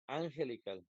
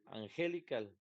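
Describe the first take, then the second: First: The stress is on the first syllable. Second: The stress is on the second syllable. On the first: "no puede ser la primera porque diría angelical" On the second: "No puede ser la segunda porque diría angelical"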